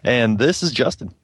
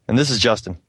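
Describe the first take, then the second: First: It is said in an overdone, cheesy way. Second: It is said in a plain, natural way.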